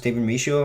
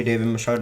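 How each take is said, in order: First: "Michôd" said as mee-SHOW; alternative pronunciation. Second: Said in the usual way. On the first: Shown as a demonstration. Reviewer guessing the director's name, "Michôd" pronounced mee-show. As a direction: say "Michôd" French-style, ending in an open "oh" with no d. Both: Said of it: "I think it's pronounced".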